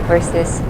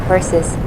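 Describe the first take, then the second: No difference in how they are said.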